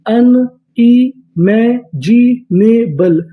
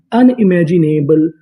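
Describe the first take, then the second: First: unimaginable stretched out slowly, syllable by syllable; slow drawn-out word. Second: Said in the usual way. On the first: Shown as a demonstration. Teacher to students, drawing unimaginable out slowly. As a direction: draw out unimaginable slowly for the class. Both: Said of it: "पूरी meaning".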